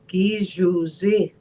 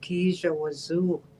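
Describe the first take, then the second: First: The word is pronounced as Gijuzi. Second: The word is pronounced as Kijawazu. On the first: The speaker calls it right. "what it was supposed to be" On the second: The speaker calls it wrong. "they pronounced it out as"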